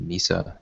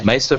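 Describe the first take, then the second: First: The first vowel sounds like 'ee'. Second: The first vowel sounds like 'ay'. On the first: The speaker calls it wrong. "I've been saying Misa. It's some sort of uh, Jar Jar Binks channeling" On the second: The speaker calls it right. "Mesa from now on"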